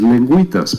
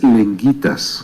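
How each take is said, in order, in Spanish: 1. La u después de la g se pronuncia. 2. La u después de la g es muda. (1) "Lo correcto, por supuesto, es lengüitas" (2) "Aquí dice lenguitas, como en la palabra guitarra"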